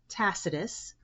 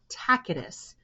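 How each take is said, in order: First: The middle consonant is an S sound. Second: The middle consonant is a K sound. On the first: This is the common English way. "with an S sound" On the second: This follows the original Latin pronunciation. "with a K sound"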